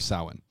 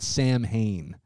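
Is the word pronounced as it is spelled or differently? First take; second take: differently; as spelled. First: The word is not pronounced the way it is spelled. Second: The word is pronounced the way it is spelled. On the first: The speaker calls it right. "but you pronounce it Samhain or Samhain" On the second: The speaker calls it wrong. "but it's not Samhain"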